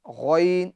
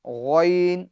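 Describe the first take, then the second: The two takes are said the same way.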